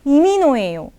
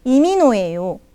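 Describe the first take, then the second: The two takes are said the same way.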